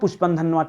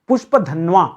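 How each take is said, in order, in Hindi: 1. यह pushpan dhanva बोला जाता है, इसमें एक अतिरिक्त n जुड़ता है। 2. यह pushpadhanva बोला जाता है, इसमें कोई अतिरिक्त n नहीं। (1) "और पढ़ता क्या हूं? ... तो गलत है फिलहाल" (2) "नाम क्या है?"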